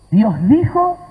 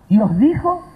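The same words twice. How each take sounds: The two takes are said the same way.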